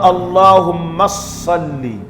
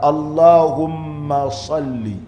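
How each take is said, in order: First: The m is short, without held nasal sound. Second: The m is held long with nasal sound. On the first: The speaker calls it wrong. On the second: The speaker calls it right.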